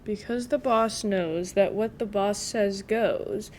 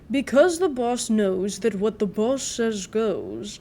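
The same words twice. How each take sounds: First: It is read in a plain, everyday voice. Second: It is read in a put-on narrator voice.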